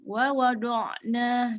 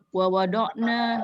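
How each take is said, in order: First: The ain sound is held and flows slightly. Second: The ain sound is cut off quickly. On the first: The speaker calls it right. "digituin dulu" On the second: The speaker calls it wrong. "Jangan wa wada'na, enggak gitu"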